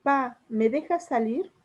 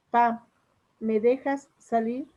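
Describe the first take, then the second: First: Said in the usual way. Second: Drawn-out pleading ask to dad; pleading child. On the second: Shown as a demonstration. Child begging dad to let them go out, slow pleading ask. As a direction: beg slowly, stretching dejas. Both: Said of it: "Otro ejemplo".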